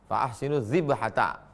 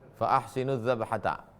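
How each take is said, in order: First: The last word has an 'i' vowel after dz. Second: The last word has an 'a' vowel after dz. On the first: "Kasran. Boleh baca dzibhata" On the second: "fathan. Boleh baca dzabhata"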